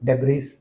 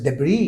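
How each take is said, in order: First: The word ends with a pronounced s sound. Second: The word ends on the vowel, no s sound. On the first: The speaker calls it wrong. "मैंने आगे एस भी पढ़ दिया" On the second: The speaker calls it right. "Yes the word is डेब्री"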